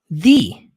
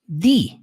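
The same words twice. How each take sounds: No difference in how they are said.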